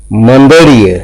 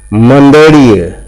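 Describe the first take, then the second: First: ᱢᱟᱹᱫᱟᱹᱲᱤᱭᱟᱹ at normal speed, each ᱟᱹ stressed, falling end; stressed demo word. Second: ᱢᱟᱹᱫᱟᱹᱲᱤᱭᱟᱹ said slowly with each ᱟᱹ stressed and a falling end; slow stressed demo. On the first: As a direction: say ᱢᱟᱹᱫᱟᱹᱲᱤᱭᱟᱹ briskly with the ᱟᱹ vowels firm. (ᱢᱟᱹᱫᱟᱹᱲᱤᱭᱟᱹ ᱟᱹ ᱡᱚᱨ ᱮᱢ ᱠᱟᱛᱮ) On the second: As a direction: draw out ᱢᱟᱹᱫᱟᱹᱲᱤᱭᱟᱹ, leaning on every ᱟᱹ. (ᱢᱟᱹᱫᱟᱹᱲᱤᱭᱟᱹ ᱞᱟᱦᱟᱣ ᱛᱮ ᱡᱚᱨ ᱮᱢ ᱠᱟᱛᱮ) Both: Shown as a demonstration. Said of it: "ᱡᱚᱨ ᱮᱢ ᱠᱟᱛᱮ ᱜᱮ".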